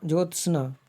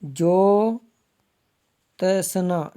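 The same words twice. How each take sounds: First: Said in the usual way. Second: ज्योत्सना with very long ज्यो, a pause, then त-स-ना; slow breakdown. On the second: Shown as a demonstration. Teacher showing how it is written, ज्योत्सना very slow and split. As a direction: stretch ज्योत्सना out piece by piece. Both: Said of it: "ऐसे आएगा".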